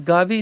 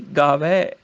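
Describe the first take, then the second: First: ਗਾਵੇ ending in close 'e'; wrong close vowel. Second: ਗਾਵੈ lower, ending in open 'ai'; corrected open vowel. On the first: Teacher showing the mistake, ਗਾਵੇ with close 'e'. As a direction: say ਗਾਵੇ as 'gaa-vay'. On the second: Teacher correcting, ਗਾਵੈ low with open 'ai'. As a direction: drop and open the end of ਗਾਵੈ. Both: Shown as a demonstration. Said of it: "ਗਾਵੇ ਨਹੀਂ".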